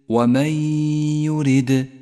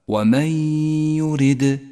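No difference in how they are said.

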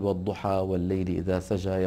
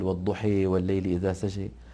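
First: The first word ends with an open a vowel. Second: The first word ends with a vowel leaning toward e. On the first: This is the usual Hafs reading. "بدل ما يقول" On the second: This is the Warsh reading, an Arabic dialect form. "يقول ... لماذا يلوي لسانه"

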